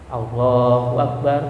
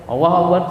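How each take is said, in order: First: It is said calmly, followed by a still pause. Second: It is said quickly, rushing into the next words. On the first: The prayer is done with proper stillness. The speaker calls it right. "Yang penting diam sebentar" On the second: The prayer is rushed without stillness. The speaker calls it wrong. "Yang enggak boleh"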